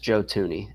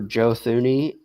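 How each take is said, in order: First: The surname begins with a plain t sound. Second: The surname begins with a th sound.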